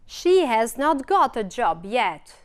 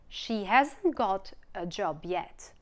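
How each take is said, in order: First: 'Has not' is said as two full words. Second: 'Has not' is shortened into one word. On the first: "the full forms" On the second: "the short ones"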